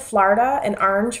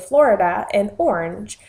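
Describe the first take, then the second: First: The vowels sound like a New York accent. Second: The vowels sound like a general American accent. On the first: This is how the speaker used to say it. The speaker calls it wrong. "I said Florida and orange for a long time and got made fun of by my husband" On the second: This is how the speaker has trained herself to say it. The speaker calls it right. "have trained myself to say Florida and orange"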